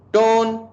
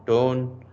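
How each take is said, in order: First: Single word pitched way up; high demonstration tone. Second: Said in the usual way. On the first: Shown as a demonstration. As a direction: sing it out high. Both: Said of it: "So tonality, tone of sound".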